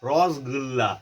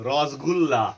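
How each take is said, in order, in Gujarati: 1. મોં ભરીને, ગોળ કરીને બોલાય છે. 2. મોં ભરીને, ગોળ કરીને બોલાય છે.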